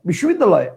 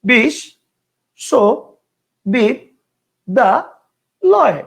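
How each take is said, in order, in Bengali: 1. শব্দটি একটানা একটি অংশে উচ্চারণ করা হয়। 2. শব্দটি পাঁচটি আলাদা অংশে ভাগ হয়েছে। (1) "একবারে ... কয়টা হলো? একটা।" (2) "কেউ উচ্চারণ করতো ... কয়টা হলো? পাঁচটা।"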